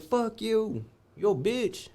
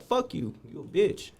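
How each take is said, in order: First: High defiant repeat of the taunt; retold insult repeated. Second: Yelled high, a mock taunt; retold insult. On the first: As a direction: throw it back at him, same pitch. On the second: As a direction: hurl the insult way up high at the guard. Cursing out the guard.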